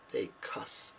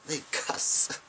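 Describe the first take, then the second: First: "cuss" said in a whisper, correcting "cursing"; funny pronunciation. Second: "cuss" whispered a bit higher; funny pronunciation. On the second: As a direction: breathe out "They cuss" playfully. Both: Shown as a demonstration. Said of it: "Not cursing".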